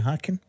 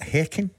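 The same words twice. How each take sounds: First: The name is said with English pronunciation. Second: The name is said with Swedish pronunciation.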